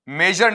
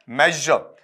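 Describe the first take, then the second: First: मेजर said as "may-jer", with hard j and sounded r; wrong pronunciation. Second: मेजर said as "mezh-uh", final r dropped; correct pronunciation. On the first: Teacher warning students off it, mistaken "may-jer". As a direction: say मेजर with a plain Hindi j and final r. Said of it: "मेजर नहीं होता है बेटा". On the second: Teacher correcting the student's word, "mezh-uh". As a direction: let मेजर fall away on an open "uh". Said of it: "क्या होता है". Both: Shown as a demonstration.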